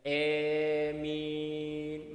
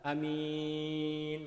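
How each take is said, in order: First: The long first vowel leans toward e. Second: The first vowel is short. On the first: "dengan memanjangkan huruf hamzah tetapi membacanya dengan imalah" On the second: "dengan memendekkan ya mat yang ada pada hamzah itu"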